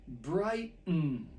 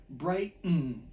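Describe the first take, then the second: No difference in how they are said.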